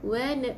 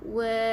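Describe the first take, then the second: First: The vowel is thin, with spread smiling lips. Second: The vowel is thick and rounded. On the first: The speaker calls it right. "wa nipiskan eh?" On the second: The speaker calls it wrong. "Bukan wa wa"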